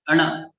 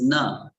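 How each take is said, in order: First: The n has the special 'ana' sound. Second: The n is a plain n sound. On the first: "when you put a dot below, it becomes ana" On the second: "na is na"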